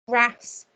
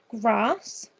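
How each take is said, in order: First: The vowel is a short flat A sound. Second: The vowel is a long open 'ah' sound. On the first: "I just read them with using a short A" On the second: "a long A that sounds like the phoneme R"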